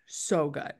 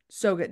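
First: Breathy whispered so good. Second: Said in the usual way. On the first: Pretend. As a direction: whisper it like a secret. Savoring snack, whispered repeat.

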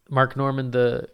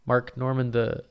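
The two takes are said the same way.

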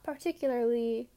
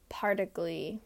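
First: Said in the usual way. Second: "particly" said as three syllables, par-tick-lee; mispronounced word. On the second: Shown as a demonstration. Podcaster joking about her floors, saying "particly" with the middle syllables dropped. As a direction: clip "particly" short, dropping the middle "u-lar". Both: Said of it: "There's a difference".

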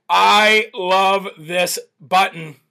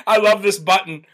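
First: Said slowly, relishing it; drawn out with delight; slow savoring. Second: Said in the usual way. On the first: Shown as a demonstration.

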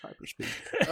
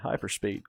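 First: "Hyperspeed" squeaked high through a laugh, breathy and voiceless. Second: Said in the usual way. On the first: Pretend. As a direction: giggle out "Hyperspeed" in a high whisper. Joking after a botched rewind.

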